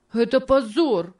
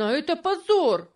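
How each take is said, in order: First: High, pained cry of shame; a boy's outcry choked with sobs; crying out, holding back sobs. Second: Even higher, more desperate cry; the outrage breaks higher on the repeat; crying out, holding back sobs, rising. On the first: George cries out at Tom's sale, choking back sobs. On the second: George repeats his outcry, higher and closer to tears. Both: A narrator's reading. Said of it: "кричал он со сдержанным рыданием".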